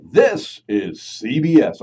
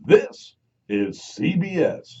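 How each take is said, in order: First: Slow, louder announcer read; lightly voiced CBS announcer; network announcer. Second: Slow, stretched announcer ident; lightly voiced CBS announcer; network announcer. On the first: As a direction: boom it like a network ident. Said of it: "the guy that goes". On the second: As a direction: draw out each letter. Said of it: "the guy who said".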